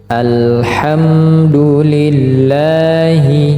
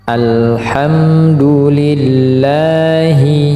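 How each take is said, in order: No difference in how they are said.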